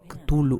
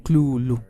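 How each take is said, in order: First: The first syllable is said plainly, without throatiness. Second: The first syllable is said thick and guttural.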